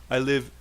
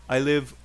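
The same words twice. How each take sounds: Both takes have the same delivery.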